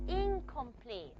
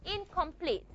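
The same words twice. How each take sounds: First: Incomplete slowly, with the n as ng before k; velar n demo. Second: Incomplete said softly as a model; model word. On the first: Teacher demonstrates the velar nasal in incomplete. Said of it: "become something like this". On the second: Teacher models incomplete for students. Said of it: "A word just like incomplete". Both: Shown as a demonstration.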